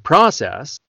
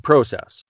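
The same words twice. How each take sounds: First: The vowels are flatter and less rounded. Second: The vowels are more rounded. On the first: "you guys would say process" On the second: "in Canada, we would say process"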